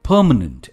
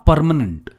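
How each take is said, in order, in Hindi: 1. पहले अक्षर में R की आवाज़ नहीं है। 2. पहले अक्षर में R की आवाज़ है। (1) "हम आर को प्रोनाउंस करते ही नहीं है" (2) "नॉट"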